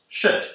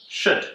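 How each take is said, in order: Both takes have the same delivery.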